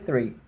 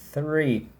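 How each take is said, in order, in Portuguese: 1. A palavra é falada rápido e naturalmente. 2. A palavra é falada devagar e exagerada. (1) "se eu falo rápido" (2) "estou falando exagerado por motivos didáticos"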